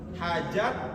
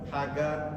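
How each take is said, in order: First: The middle consonant is a j sound. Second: The middle consonant is a hard g.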